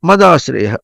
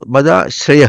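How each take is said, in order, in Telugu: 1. మొదటి అక్షరం స్వరం పైకి లేస్తుంది. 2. మొదటి అక్షరం స్వరం పైకి లేవదు. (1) "మా పైకి పలికితే" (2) "చూసా నువ్వు దాని ఇప్పుడు మదాశ్రయః అని వేరవుతుంది"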